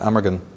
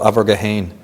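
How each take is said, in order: First: The name is said in its shorter English form. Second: The name is said in its longer Irish form. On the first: "or in English you pronounce it Amergin" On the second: "In Celtic tradition"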